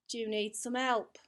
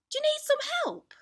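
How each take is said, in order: First: "Do you need some help?" at an ordinary pitch, falling at the end; changed intonation, lower. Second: "Do you need some help?" very high and louder throughout; one intonation, high-pitched. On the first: Drama teacher changing the meaning, "Do you need some help?" in low-key falling intonation. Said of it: "if I change the interna-, intonation". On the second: Drama teacher's first example, "Do you need some help?" in high, loud intonation. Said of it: "That's one way of saying it". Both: Shown as a demonstration.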